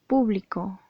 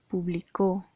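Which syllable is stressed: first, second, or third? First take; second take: first; third. First: The stress is on the first syllable. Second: The stress is on the third syllable. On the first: It refers to a crowd attending an event. "Si le colocamos el acento en la primera sílaba" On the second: It is a past-tense verb: published. "si colocamos el acento en la tercera sílaba"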